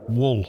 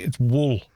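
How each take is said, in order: First: "Wool" said the Welsh way, a short rounded oo. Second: "wool" with a short rounded oo, no A sound; Welsh wool. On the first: Friend asks, Welshman answers with a Welsh "Wool". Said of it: "Say this word again". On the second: Welshman correcting his mate, says "wool" the Welsh way. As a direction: correct the friend with "wool" rhyming with full. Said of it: "There's no A in it, mate". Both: Shown as a demonstration.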